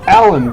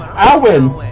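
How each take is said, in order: First: The middle consonant is a clear L sound. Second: The middle consonant is a W sound. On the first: The speaker calls it right. "it sounds like it should be pronounced Alan" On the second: The speaker calls it wrong. "but no, they're going Awen"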